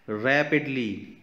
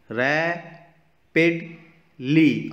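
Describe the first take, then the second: First: Said in the usual way. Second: rapidly split into three slow beats, रै, पिड, ली; syllable by syllable. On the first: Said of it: "अब देखिए, three sounds". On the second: Shown as a demonstration. Teacher showing kids the three sounds, rapidly broken into syllables. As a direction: sound out rapidly with a clear pause after each syllable. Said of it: "three sounds आ रहे हैं".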